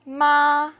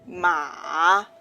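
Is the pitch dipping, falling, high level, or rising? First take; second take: high level; dipping. First: The pitch stays high and level. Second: The pitch dips low, then rises. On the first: "is a high level tone" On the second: "is a low rising tone"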